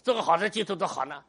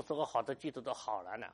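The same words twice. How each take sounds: First: 做 hit hard and loud; emphatic correction. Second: Mild sigh of a worried believer; complaining church member. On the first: Shown as a demonstration. Pastor correcting the believer, 做 stressed loudly. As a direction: punch 做 in 做个好的基督徒好难 with a sharp, loud push. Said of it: "你没听懂，". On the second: Retold or imitated. Pastor voicing a believer's complaint, mildly. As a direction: quote the member's complaint gently. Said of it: "说：".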